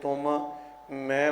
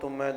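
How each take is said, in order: First: Both m sounds are kept, two separate words. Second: One m sound is dropped, merging into one word. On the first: You and I, two separate words. The speaker calls it right. "ਤੁਮ ਅਤੇ ਮੈਂ ਦੋ ਅਲੱਗ-ਅਲੱਗ ਅੱਖਰ ਹਨ" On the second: It sounds like the name of a bitter fruit. The speaker calls it wrong. "ਇੱਕ ਮੰਮਾ ਅੱਖਰ ਜਿਹੜਾ ਤੁਮ ਵਾਲਾ ਹੈ ਉਸ ਨੂੰ ਖਾ ਜਾਂਦੇ"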